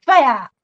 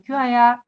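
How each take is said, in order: First: Louder, sharp call of a name; mother calling. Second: Easy, less forceful summons; mother calling differently. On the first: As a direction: call the child as a stern mother would. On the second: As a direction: call the child mildly, as a mother would. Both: Shown as a demonstration. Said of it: "똑같은 이름이라도 부른 게 달라요".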